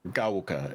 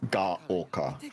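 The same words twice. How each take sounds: First: The syllables are blended together smoothly. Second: The syllables are clearly separated from each other. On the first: The speaker calls it wrong. "it's not Gaoka" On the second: The speaker calls it right. "Like they're very separated"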